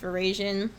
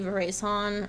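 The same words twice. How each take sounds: First: The word has an American English pronunciation. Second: The word has a French-style pronunciation. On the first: This is the usual form in the United States. "is how we pronounce it in the United States" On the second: This is how it might be said in France. "in France, they might say"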